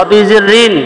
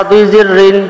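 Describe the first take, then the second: The two takes are said the same way.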